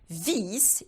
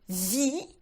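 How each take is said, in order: First: The final S is pronounced. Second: The final S is silent. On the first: A screw. The speaker calls it wrong. "If you do pronounce it and you say vis, it means a screw" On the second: You live. The speaker calls it right. "you need to make sure that you are not pronouncing that final S"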